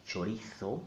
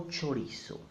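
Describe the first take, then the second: First: Chorizo with z said as th; mainland Spain pronunciation. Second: Chorizo with z said as s; Latin American pronunciation. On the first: Teacher showing mainland Spanish usage, Chorizo with a th. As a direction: say Chorizo the Castilian way, cho-REE-tho. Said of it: "as in mainland Spain". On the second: Teacher showing the Latin American way, chorizo with an s. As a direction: say chorizo as cho-REE-so. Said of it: "That will be the Latin American way". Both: Shown as a demonstration.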